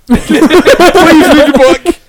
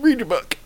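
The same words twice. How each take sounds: First: High, drawn-out mock plea; mock pleading. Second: Soft, muted nudge; quiet mock prompting. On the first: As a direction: plead slowly in a hammed-up high voice. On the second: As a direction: say it softly, under your breath. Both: Mock plea to a fellow believer.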